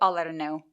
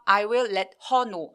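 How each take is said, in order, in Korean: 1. "I will"은 줄여서 매끄럽게 이어 말해요. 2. "I will"은 두 개의 완전한 단어로 말해요. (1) "한 번에 쭉 얘기하시면 좋아요" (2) "아니고"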